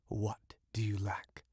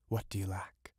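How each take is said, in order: First: Breathy secret whisper of the question; eerie whisper. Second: Said in the usual way. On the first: Acted. Witch whispering to the young fisherman. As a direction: hush it like a secret.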